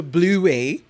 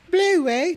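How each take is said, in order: First: Said in the usual way. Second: High-pitched Australian-accented cartoon name; playful, high Australian mimicry. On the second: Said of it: "infiltrated in the Australian accent".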